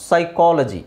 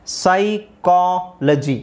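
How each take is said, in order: First: Said in the usual way. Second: ಸೈಕಾಲಜಿ very slowly, split into sai, kaa, la-ji; syllable-by-syllable demo. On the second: Shown as a demonstration. Teacher drills learners on PSY as sai, ಸೈಕಾಲಜಿ very slowly in syllables. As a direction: stretch ಸೈಕಾಲಜಿ out in separate syllables, S first. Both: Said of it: "ಸೈ ಅಂತಲೇ ಹೇಳಬೇಕು".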